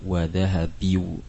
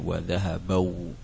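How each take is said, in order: First: The verb ends in an i-u vowel sequence. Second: The verb ends in an a-u vowel sequence. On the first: "Kalau diganti dengan kasroh akan sulit dibacanya" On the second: "Kalau diganti dengan fathah juga sulit dibacanya"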